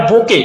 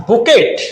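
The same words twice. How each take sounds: First: बोके ending in an open "kay", no T; silent-T pronunciation. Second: बुकेट with the final T sounded; spelling pronunciation. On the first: Teacher gives students what some people say, silent-T pronunciation. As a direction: say बोके with the final T left silent. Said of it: "कुछ लोग बुके कहते हैं". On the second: Teacher reads the option to students as written, spelling pronunciation. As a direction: say बुकेट as written, ending in a hard T. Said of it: "सीधे सीधे बुकेट लिखा है". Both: Shown as a demonstration.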